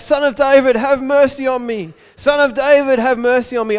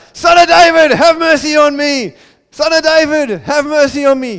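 First: High, loud plea; raised-voice cry to someone passing by; yelling out. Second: Full-voiced, very high desperate shout; loud, high cry, holding nothing back; shouting louder. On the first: Retold or imitated. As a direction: call out desperately for mercy. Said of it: "he starts yelling out". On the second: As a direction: yell for mercy over the whole crowd. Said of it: "He just shouted louder".

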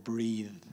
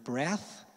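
First: "breathe" ending in a voiced th; "breathe" with voice held through the final th. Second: "breath" ending in an unvoiced th; "breath" with no voice on the final th. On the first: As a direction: let the th of "breathe" buzz. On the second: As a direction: end "breath" on a voiceless hissed th. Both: Shown as a demonstration. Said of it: "whether you voice them or not".

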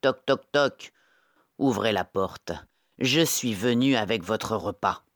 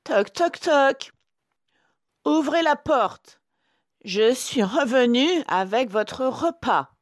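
First: Lightly voiced big wolf, firm knocks; wolf's own voice. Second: High, loud falsetto disguise; sweetened wolf voice. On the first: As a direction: demand entry as a wolf, far below the sweet disguise. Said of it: "de sa voix de loup". (grosse voix de loup, légèrement jouée) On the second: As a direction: coo like a wolf posing as mother. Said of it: "de sa voix douce de loup". (fausse voix douce de loup, aiguë) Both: A narrator's reading.

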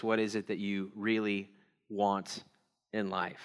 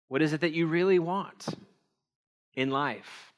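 First: Low, quiet, with pauses before the last words; hushed, weighty question with gaps; soft, grave question. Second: "really want" lifted higher, then a pause; raised, insistent question with a long gap before "in life"; pointed repeated question. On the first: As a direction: pose it softly and let it sink in. Question posed, then repeated for weight. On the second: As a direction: press the question, holding back "in life". Same question repeated more pointedly. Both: Real, not acted.

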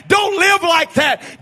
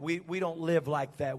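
First: Don't LIVE like that shouted loud and higher, slow; shouted warning. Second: We, we don't live like that said much softer and lower, mock-prim; mocking soft coax. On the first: Acted. The warning man shouting at the people, loud slow warning. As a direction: bellow the warning with weight on live. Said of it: "the voice of a man that's saying". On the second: The soothing woman mocking the strict voices to Noah, soft. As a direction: murmur it as a dismissive imitation. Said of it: "there comes this woman along that says".

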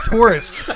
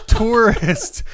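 First: "Tourist" said clearly and loud; corrected word. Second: "Tourist" laughed, rising; giggling "Tourist" again; laughing repeat. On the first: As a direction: stress "Tourist", falling. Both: Shown as a demonstration. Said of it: "I almost said terrorist".

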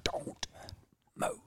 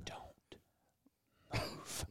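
First: Breathy, urgent hushed command; whisper yell. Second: Hushed, urgent warning; whisper yell. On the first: Shown as a demonstration. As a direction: force it out in a half-whisper. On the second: Retold or imitated. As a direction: hiss it urgently without a sound. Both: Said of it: "was it whisper yell".

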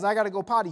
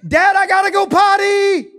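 First: Said in the usual way. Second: Loud, high shout across the house; screaming child. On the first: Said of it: "that kid who's potty training yells". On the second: Retold or imitated. Potty-training daughter calling urgently to dad, screamed. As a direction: yell it at full volume like an urgent kid. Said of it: "and she screams".

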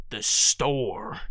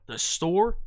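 First: "The store" lower and falling, certain; confident answer. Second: "The store" with a rising ask; questioning "The store?". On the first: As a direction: answer by just repeating it. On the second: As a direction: repeat it as a question. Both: Shown as a demonstration. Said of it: "Just repeat yourself".

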